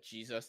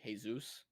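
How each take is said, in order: First: The word begins with a J sound. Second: The word begins with an H sound. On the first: "instead of saying" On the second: "J sounds like an H"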